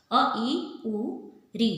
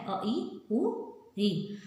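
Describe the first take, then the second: First: अ, ई, उ, री each said short and crisp; short vowel demo. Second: अ, ई, उ, री spaced out very slowly one by one; slow vowel demo. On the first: Teacher showing pupils short vowels, crisp and quick. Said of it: "उदाहरण देखो". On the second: Teacher repeating short vowels to pupils, slow and spaced. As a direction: lay out अ, ई, उ, री slowly for the class. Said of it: "बहुत ही थोड़ा सा time लगता है". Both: Shown as a demonstration.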